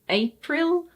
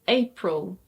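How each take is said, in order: First: The last vowel is a full, clear vowel. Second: The last vowel is a weak schwa sound. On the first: The speaker calls it wrong. "it's not April" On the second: The speaker calls it right. "it's April"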